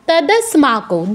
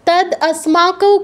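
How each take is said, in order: First: It is said joined together as one word. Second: It is split into two separate parts. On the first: The speaker calls it right. "দ পুরোটা একসাথে উচ্চারণ করবেন" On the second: The speaker calls it wrong. "কেন বলছেন?"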